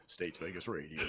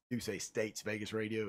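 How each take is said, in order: First: Low deep radio DJ voice; radio announcer voice. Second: Said in the usual way. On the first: Shown as a demonstration. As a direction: drop into a smooth announcer tone. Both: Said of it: "radio-ish voice".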